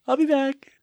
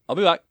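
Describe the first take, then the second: First: It is said in a high, girlish voice. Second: It is said in a plain, normal voice.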